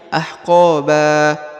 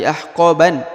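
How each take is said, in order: First: The word ends with an open a vowel. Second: The word ends with an n sound. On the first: The speaker calls it right. "tapi ahqaba" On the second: The speaker calls it wrong. "Bukan lagi ahqaban"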